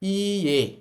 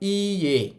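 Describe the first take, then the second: No difference in how they are said.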